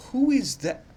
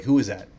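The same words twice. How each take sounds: First: Much higher, squeaky disbelieving who is that; a sudden high baffled squeak; squeaky baffled question. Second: Said in the usual way. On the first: Real, not acted. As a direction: squeak it out in confusion. Baffled by an unknown name.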